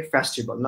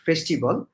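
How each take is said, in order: First: "festival" with an open e, "fæs-ti-bol"; "festival" opening wide on "fæs"; correct pronunciation. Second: "festival" with a closed e, "fesh-ti-bol"; "festival" with a narrow first vowel; wrong pronunciation. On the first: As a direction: model "festival" with a broad first vowel. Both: Shown as a demonstration. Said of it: "not festival".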